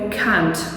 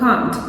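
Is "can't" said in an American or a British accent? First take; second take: American; British. First: The word is said in an American accent. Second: The word is said in a British accent. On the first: "в американській ви можете чути його як can't" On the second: "в британсько-англійській ми вимовляємо його як can't"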